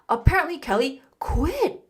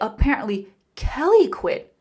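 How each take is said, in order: First: The word quit carries the main stress. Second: The word Kelly carries the main stress. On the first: She quit rather than just taking a day off. "Or I can stress the verb" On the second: It was this person, not someone else, who quit. "this makes it sound like it's not that person, it's Kelly"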